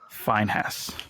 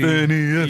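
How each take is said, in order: First: The name is said with an h sound. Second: The name is said without an h sound.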